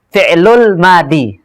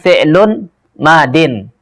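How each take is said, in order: First: The second word ends with a bare -i. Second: The second word ends with the sound -in. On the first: The speaker calls it wrong. "itu salah" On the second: The speaker calls it right. "Bacanya itu adalah fi'lun madin"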